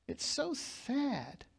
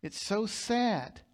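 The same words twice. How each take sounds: First: Much softer and slow, a hushed sorrowful "It's so sad"; soft sad repeat. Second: Said in the usual way. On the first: Acted. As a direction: let the repeat sink quietly into sorrow. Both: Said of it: "It's so sad. (repeated)".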